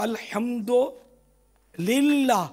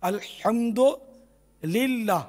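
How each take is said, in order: The two takes are said the same way.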